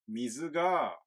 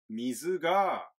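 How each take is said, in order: Both takes have the same delivery.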